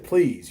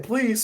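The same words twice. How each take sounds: First: Said in the usual way. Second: Put-on high, childish kid voice; imitating himself as a kid. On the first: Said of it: "to my understanding, I was being nice". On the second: Boy asking grandma for Tiffany, childish voice. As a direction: say please like a young boy. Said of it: "And I said".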